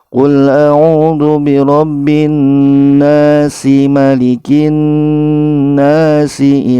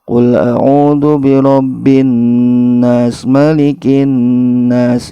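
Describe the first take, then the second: First: Each verse ends with an added i vowel. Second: Each verse ends on a bare s sound. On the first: The speaker calls it right. "Seharusnya ujungnya harus kita baca" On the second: The speaker calls it wrong. "Seperti ini kesalahannya"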